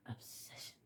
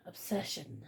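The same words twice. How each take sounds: First: Hushed, voiceless whisper of one word. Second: Said in the usual way. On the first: Real, not acted. Naming why they cannot stop, whispered. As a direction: drop right down and whisper it.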